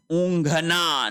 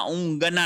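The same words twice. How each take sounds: First: ऊँघना with an aspirated gh; correct pronunciation. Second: ऊँघना with a plain hard g, no aspiration; wrong pronunciation. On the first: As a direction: draw out ऊँघना slowly as "oon-gha-na". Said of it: "ऊँघना होता है". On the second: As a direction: say ऊँघना as "oongana". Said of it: "नहीं होता". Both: Shown as a demonstration.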